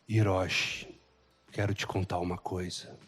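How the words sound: The voice sounds grave and ominous. "Não dá um suspense, não dá um medo?"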